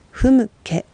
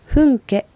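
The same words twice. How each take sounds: First: ふむけ with the lips closed on a light m, hum-ke; correct pronunciation. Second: ふんけ with a nasal n instead of a closed m; ふんけ said wrongly, the lips not closing; wrong pronunciation. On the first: Teacher shows the right way, ふむけ with lips closed. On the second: Teacher shows the wrong way, ふんけ with n. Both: Shown as a demonstration. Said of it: "ふんけとならないようにふむけ".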